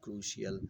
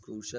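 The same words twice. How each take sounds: First: Both of the two vowels are sounded. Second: Only one of the two vowels is sounded. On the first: The speaker calls it wrong. "not crucial" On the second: The speaker calls it right. "you have to consider the sound of one vowel as silent. So this is crucial"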